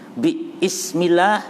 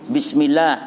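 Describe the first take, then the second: First: A glottal stop separates 'bi' and 'ismillah'. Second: 'Bi' runs straight into 'smillah' without a stop. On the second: "dimudahkan buang hamzah menjadi bismillah"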